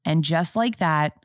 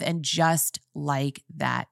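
First: Said in the usual way. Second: Slow, soft and weighty, announcing the show's name; dramatic title drop. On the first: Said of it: "And just like that, I was traumatized". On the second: Shown as a demonstration. Telling her viewers the show's title, slow and dramatic. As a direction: savour each word of the title And just like that. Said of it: "And just like that, you guys".

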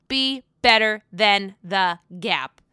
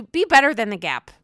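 First: Slow, deliberate repeat of the line; slow movie quote. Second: Said in the usual way. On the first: Retold or imitated. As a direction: drag it out like a famous movie line. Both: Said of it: "As Ryan Gosling would say".

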